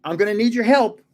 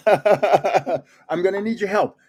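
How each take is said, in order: First: Said in the usual way. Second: Slow, laughing through the words; laughing plea. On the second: Real, not acted. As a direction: laugh while begging for help.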